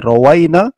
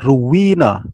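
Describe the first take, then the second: First: The first syllable has an 'a' vowel. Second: The first syllable has a 'u' vowel. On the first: We narrated it. "Boleh dibaca rawaina" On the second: We received the narration from our teachers. "boleh dibaca ruwina"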